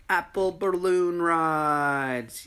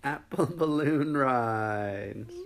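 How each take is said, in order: First: Slow, high, loud shout; excited shout. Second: Laughing through the words; slow, amused repeat. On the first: Acted. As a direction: announce it with glee. Triumphant announcement. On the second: Real, not acted.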